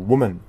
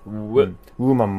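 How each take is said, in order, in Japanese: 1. 唇を丸めたwの半母音で始まります。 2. 普通のoo母音で始まります。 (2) "ウでなくて"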